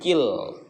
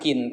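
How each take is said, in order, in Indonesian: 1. Bunyi n menyatu menjadi bunyi l. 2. Kata ini berakhir dengan bunyi n yang jelas. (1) "tapi kil" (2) "Jangan kin"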